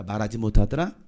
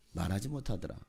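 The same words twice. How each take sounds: First: Loud, low questioning repeat; punchy and loud, lifting at the end; loud emphasis. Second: Soft, low, falling echo; low and hushed, settling at the end; subdued repeat. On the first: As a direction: throw it out loudly with a rising end. Repeats the phrase loud, then hushed. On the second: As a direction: drop it down quietly. Same phrase repeated, dropped down. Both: Real, not acted.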